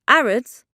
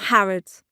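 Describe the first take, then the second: First: The word starts without an h sound. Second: The word starts with an h sound.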